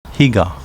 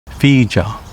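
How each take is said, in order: First: The name is said with Japanese sounds. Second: The name is said with Okinawan sounds. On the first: This is the name's present-day reading. "current reading" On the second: This is the name's older native reading.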